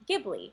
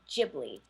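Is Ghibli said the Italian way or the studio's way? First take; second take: Italian; studio's way. First: The name is said with Italian pronunciation. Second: The name is said with the studio's pronunciation. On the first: This is the original word's pronunciation. "Ghibli is an Italian word and it is pronounced Ghibli" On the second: This is how the studio's founder says it. "he actually calls it Studio Ghibli"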